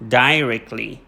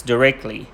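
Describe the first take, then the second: First: DIRECTLY said "DIE-rekt-lee", first syllable like "die"; British pronunciation. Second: DIRECTLY said "duh-REKT-lee", short first vowel; American pronunciation. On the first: Teacher showing students British English, DIRECTLY as "DIE-rekt-lee". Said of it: "but in British English, we say". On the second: Teacher showing students American English, DIRECTLY as "duh-REKT-lee". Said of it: "In American English, we pronounce". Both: Shown as a demonstration.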